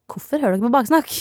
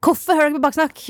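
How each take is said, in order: First: Teasing question to the listening parents, said lightly; mock scolding. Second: Higher, louder playful reproach; louder mock scolding. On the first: To Sara's parents, mild mock scolding. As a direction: gently tease them for eavesdropping. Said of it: "hvis mammaen og pappaen til Sara hører på nå". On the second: To Sara's listening parents, hammed-up scolding. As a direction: scold them with exaggerated outrage. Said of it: "hvis dere hører på det her".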